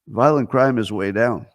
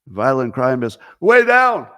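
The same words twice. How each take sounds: First: Every word is said flatly, without special emphasis. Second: The words 'way' and 'down' are loud and forceful. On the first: The claim sounds unimpressive. "if he didn't use the capitals, I would have read it this way" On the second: The claim sounds dramatic and impressive. "the way he's written with the capitals"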